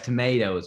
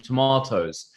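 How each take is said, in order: First: It is said in an American accent. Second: It is said in a non-American accent.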